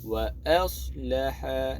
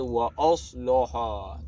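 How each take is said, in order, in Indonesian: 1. Huruf hamzah dan lam terdengar ringan dan tipis. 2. Huruf hamzah dan lam terdengar berat dan tebal. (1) "Dia a nipis, la nipis. Uh, sad tebal" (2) "jangan kita baca wa aslaha. Nah, tu salah"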